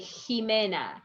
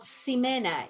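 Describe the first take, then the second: First: The first sound is a J-like throat sound. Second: The first sound is not a J-like sound. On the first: The speaker calls it right. "You read like Jimena" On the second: The speaker calls it wrong. "is not Ximena"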